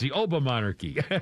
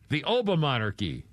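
First: The term is said as two separate words. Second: The term is blended into a single word. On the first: "I like my way better" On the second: "It's O-B-A and then monarchy, so it's Obamonarchy"

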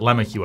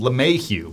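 First: The name is pronounced in an English way. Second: The name is pronounced in a French way. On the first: The speaker calls it right. "he pronounces it LeMahieu apparently" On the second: The speaker calls it wrong. "I always mispronounce it. ... that's how it seems like it should be pronounced because it's French"

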